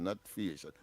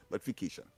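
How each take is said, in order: First: Fiation said quietly with no c sound; the wrong version fiation, dropping the k; wrong pronunciation. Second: Fication with a clear k sound, said softly; the right version fication, stressing the k; correct pronunciation. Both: Shown as a demonstration. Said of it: "fication, not fiation, but fication".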